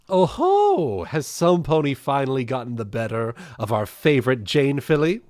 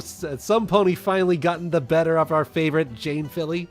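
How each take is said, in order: First: It is read in a Rarity voice. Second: It is read in a Pinkie Pie voice.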